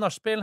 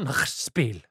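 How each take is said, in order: First: The word is said with a Norwegian pronunciation. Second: The word is said with a German pronunciation. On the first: "skal vi ta på nachspiel?" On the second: "det heter nachspiel. / men på tysk?"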